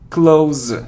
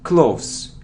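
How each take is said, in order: First: The word ends with a z sound. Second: The word ends with an s sound. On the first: The speaker calls it right. "it's z" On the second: The speaker calls it wrong. "It isn't close"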